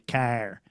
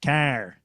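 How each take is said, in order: First: The word is said with a strong Michigan R. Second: The same.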